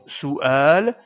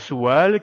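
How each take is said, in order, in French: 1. Les deux voyelles sont nettement séparées. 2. Les deux voyelles glissent ensemble comme un w. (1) "On prononce donc bien ce mot su'al" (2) "et non pas su'al qui ne veut rien dire du tout"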